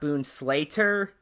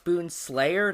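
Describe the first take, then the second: First: The name ends with a 'slater' sound. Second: The name ends with a 'slayer' sound. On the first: The speaker calls it wrong. "not Boonslater" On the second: The speaker calls it right. "it's Boonslayer"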